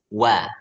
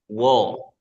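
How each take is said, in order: First: The syllable is said light, with a clear a vowel. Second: The syllable is said heavy, with a rounded o-like vowel. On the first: The speaker calls it right. "wawu itu tipis wa" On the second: The speaker calls it wrong. "nggak boleh kita baca wo, dibaca tebal"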